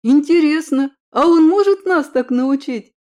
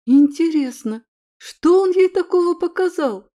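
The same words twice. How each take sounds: First: Higher, louder eager question; eager excitement. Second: Higher, louder amazed wondering; surprised wondering. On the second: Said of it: "вымолвила удивлённая подруга". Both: A narrator's reading.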